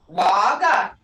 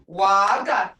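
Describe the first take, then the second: First: The vowel sound is held long. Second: The same.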